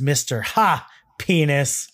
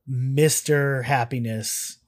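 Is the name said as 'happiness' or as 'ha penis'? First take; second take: ha penis; happiness. First: The name is split and said as 'ha penis'. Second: The name is said as the ordinary word happiness. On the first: "In American, it's pronounced Mr. Ha Penis" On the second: "I'm actually just pronouncing it the way it's pronounced in Canadian"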